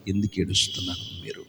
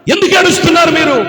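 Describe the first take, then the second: First: Hushed, low "ఎందుకు ఏడుస్తున్నారు మీరు?" almost whispered; quiet concerned asking; soft question. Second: "ఎందుకు ఏడుస్తున్నారు మీరు?" called out high and fast; loud, pressing question; urgent loud question. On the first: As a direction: ask the crying girls gently. Asking crying girls gently. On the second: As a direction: demand an answer over the noise. Asking crying girls urgently. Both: Acted.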